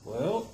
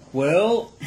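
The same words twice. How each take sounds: First: Said in the usual way. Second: Higher and louder well; delighted rising exclamation; excited. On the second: Real, not acted. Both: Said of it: "it pops".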